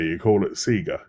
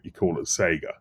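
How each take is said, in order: First: Sega is said the way Australians say it. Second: Sega is said the way Britons and Americans say it. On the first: This is how people in Australia say it. "if you lived in Australia, you call it Sega" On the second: This is how people in the UK or US say it. "If you come from the U K or the U S where they had actual T V ads for it, you call it Sega"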